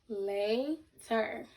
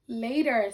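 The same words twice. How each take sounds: First: "Later" as a long "lay", pause, "ter"; two separate syllables. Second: Said in the usual way. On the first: Shown as a demonstration. Teacher breaking down a word for pupils, syllable by syllable. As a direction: stretch the first half of "Later", then drop in "ter". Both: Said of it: "break down later into two syllables".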